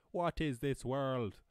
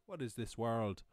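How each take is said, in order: First: Slow, drawn-out "What is this world"; exaggerated amazement. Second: Said in the usual way. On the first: Marvelling at free language learning, exaggerated amazement. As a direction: stretch every word in mock wonder.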